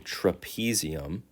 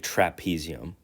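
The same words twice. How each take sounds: First: The first syllable sounds like the start of trapeze. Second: The first syllable sounds like the word trap. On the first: "tra, which rhymes with trapeze" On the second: "I guess you could say trapezium"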